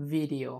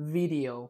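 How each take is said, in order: No difference in how they are said.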